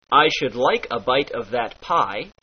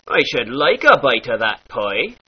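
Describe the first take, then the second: First: Said in the usual way. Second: "pie" said as "poi"; pirate oi. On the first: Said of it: "turns into". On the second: Shown as a demonstration. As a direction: turn the I of "pie" into oi. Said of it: "becomes an oi sound".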